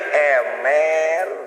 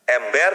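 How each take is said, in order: First: The b sound in the middle is dropped. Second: The b sound in the middle is pronounced.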